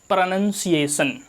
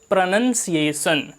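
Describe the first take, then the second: Both takes have the same delivery.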